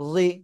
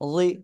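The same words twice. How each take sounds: First: The consonant is made with tongue-edge contact. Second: The same.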